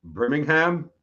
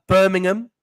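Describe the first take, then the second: First: Birmingham with a full ham ending; American Birmingham. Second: Birmingham clipped to birming-um; British Birmingham. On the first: [name] reads the placename the American way. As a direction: stretch Birmingham out with a clear ham. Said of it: "So American, [name]". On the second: Host shows [name] the British Birmingham. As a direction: swallow the ham in Birmingham. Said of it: "This is, uh". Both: Shown as a demonstration.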